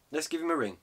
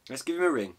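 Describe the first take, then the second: No difference in how they are said.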